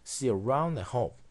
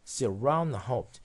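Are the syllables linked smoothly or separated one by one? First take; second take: linked; linked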